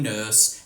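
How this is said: It is said in an Australian accent.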